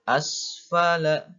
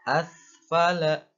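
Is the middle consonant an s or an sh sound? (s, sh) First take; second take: s; sh. First: The middle consonant is a clear s. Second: The middle consonant sounds like sh. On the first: The speaker calls it right. "bedakan sin" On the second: The speaker calls it wrong. "Jangan dibaca asfala"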